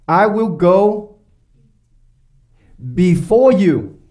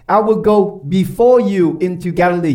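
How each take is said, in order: First: I will go, then a long pause before before you, slowly; drawn-out, weighty words with pauses; slow, solemn quote. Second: Said in the usual way. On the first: Acted. Reading Jesus's words from Matthew.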